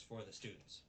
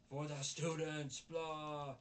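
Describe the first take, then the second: First: Said in the usual way. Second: Loud, high, drawn-out mock proclamation; mocking slogan. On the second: Reviewer mocks the organization's motto, mocking slogan. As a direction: parrot it loudly and slowly, higher pitched.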